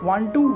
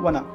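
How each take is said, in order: First: Both words are said fully and separately. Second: The words are merged into one short word. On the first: "वांट टू को वना" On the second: "कुछ words को short में बोलना"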